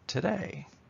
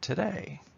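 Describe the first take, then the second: First: The stress is on the second syllable. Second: The stress is on the second syllable.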